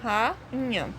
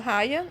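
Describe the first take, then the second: First: The a and i are split into two syllables. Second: The a and i are joined in one syllable. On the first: The speaker calls it right. "eu falo rainha. Então, o A e o I se separam" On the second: The speaker calls it wrong. "Eu não falo"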